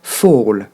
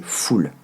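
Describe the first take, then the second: First: "Fall" as fol, open vowel, dark l; English ending like fall. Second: "full" as a clear French "fool"; French mispronunciation. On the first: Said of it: "le prononcer comme tomber en anglais". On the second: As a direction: say "full" with a tight oo, fully pronounced. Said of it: "vous avez tendance à le prononcer". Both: Shown as a demonstration.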